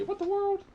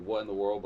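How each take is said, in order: First: Put-on squeaky high child's "What the world?", said loud; imitating a kid. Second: Said in the usual way. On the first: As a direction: pipe up like a startled little kid. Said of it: "they'd always say".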